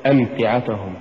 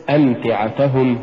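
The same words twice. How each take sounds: First: "أمتعتهم" falling away, ta unpushed; mispronounced أمتعتهم. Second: "أمتعتهم" with a light push on ta before hum; correct أمتعتهم. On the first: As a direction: say أمتعتهم letting the ta go weak. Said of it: "ولا تقل". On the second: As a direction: lift the ta of أمتعتهم. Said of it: "قل". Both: Shown as a demonstration.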